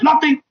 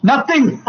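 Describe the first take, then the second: First: Clipped, higher nothing; sulky one-word brush-off; wife's nothing. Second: Wife's curt nothing, pitched up a little. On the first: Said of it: "You will hear that hundred times". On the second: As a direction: toss it off like a hurt wife. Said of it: "a universal word that comes out from the wife". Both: Retold or imitated.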